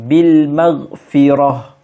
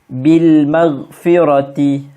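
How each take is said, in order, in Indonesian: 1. Frasa itu berakhir dengan bunyi h yang berdesah. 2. Frasa itu berakhir dengan t dan vokal pendek.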